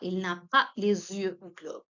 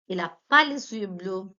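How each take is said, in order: First: The 'n' sound before 'a' is pronounced. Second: The 'n' sound before 'a' is dropped.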